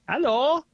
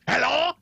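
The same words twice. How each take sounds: First: It is said in a French accent. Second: It is said in a loud German accent. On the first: "that was a French accent? there's a French person saying hello" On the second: "you couldn't do a German accent"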